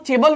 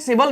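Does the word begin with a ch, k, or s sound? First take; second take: ch; s. First: The word begins with a ch sound. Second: The word begins with an s sound. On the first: "हमने इसको चेबल नहीं पढ़ा" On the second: "इसको हमने सेबल नहीं पढ़ा है"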